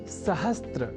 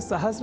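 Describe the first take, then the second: First: A 't' sound comes before the 'r'. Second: The 's' goes straight into the 'r'. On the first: The speaker calls it wrong. "सहस्त्र इस रूप में न केवल लिखने की ही बल्कि बोलने की भी प्रवृत्ति या कुप्रवृत्ति" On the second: The speaker calls it right. "सहस्र इस रूप में ही सर्वथा शुद्ध है"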